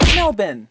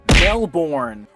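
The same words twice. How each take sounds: First: Melbourne is said the Australian way. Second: Melbourne is said in a non-Australian way.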